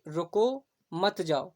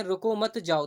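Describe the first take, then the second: First: रुको, then a break, then मत जाओ together; pause after रुको. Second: रुको मत together, then जाओ; group रुको मत as one, जाओ apart; pause after मत. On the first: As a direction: slowly, stop after रुको before मत जाओ. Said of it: "दोनों के जो भाव हैं वो अलग हैं". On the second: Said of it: "वहीं अगर हम कहें". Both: Shown as a demonstration.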